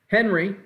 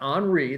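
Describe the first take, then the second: First: It sounds like the everyday English name Henry. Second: It sounds different from the English name Henry. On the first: The speaker calls it wrong. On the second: The speaker calls it right. "but it's actually pronounced Henri"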